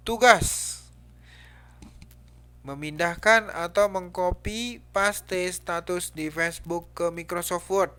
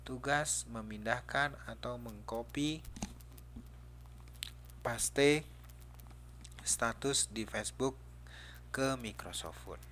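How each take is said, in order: First: Loud, high, forceful read-out of a title; angry exclamation. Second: Said in the usual way. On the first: Shown as a demonstration. Teacher showing how an exclamation mark reads, angrily. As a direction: bellow it like an angry order. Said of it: "Itu bacanya marah berarti itu". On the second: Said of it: "jadi kalau ini cuman judul".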